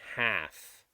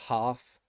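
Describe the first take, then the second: First: It has an American short 'a' vowel. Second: It has a British long 'ah' vowel. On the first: "they will say half" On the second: "they will not say half"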